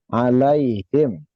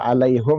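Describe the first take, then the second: First: The last vowel is an 'i' sound. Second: The last vowel is an 'u' sound. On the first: The speaker calls it right. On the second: The speaker calls it wrong. "jangan dibaca alaihum ya"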